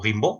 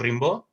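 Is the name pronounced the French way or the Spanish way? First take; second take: French; Spanish. First: The name is said with French sounds. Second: The name is read with Spanish sounds. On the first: The speaker calls it right. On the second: The speaker calls it wrong.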